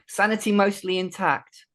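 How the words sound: It is said in a put-on character voice.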